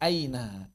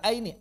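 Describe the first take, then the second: First: The word ends with an ah sound. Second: The word ends with an ee sound. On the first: It relaxes the tongue and is easy to pronounce. The speaker calls it right. "Fathahnya itu merilekskan lidah" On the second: It is heavy and strained to pronounce. The speaker calls it wrong.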